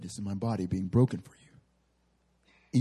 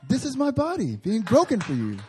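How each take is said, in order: First: The voice is pitched low and deep. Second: The voice is pitched high and light. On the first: The words carry authority. "I always do the like God voice or Jesus voice. It's always like deep" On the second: The words carry less authority. "No one ever imagines God's voice to be like high"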